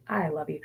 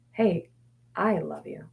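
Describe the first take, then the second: First: Said in the usual way. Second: Soft and tender, almost hushed; tender self-talk. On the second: Shown as a demonstration. Talking to her anxious mind, a soft tender I love you. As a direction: gently send love to the gremlin. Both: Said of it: "is to send it love".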